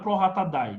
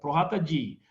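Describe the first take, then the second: First: The final word is pronounced like "dye". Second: The final word is pronounced like "dee". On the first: The speaker calls it wrong. "não é pro rata dai" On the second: The speaker calls it right. "É pro rata di"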